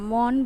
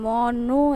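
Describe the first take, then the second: First: The word ends on the consonant sound. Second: The word ends with an added vowel sound. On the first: The speaker calls it right. "মন বলি শুধু" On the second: The speaker calls it wrong. "এরম বলি না"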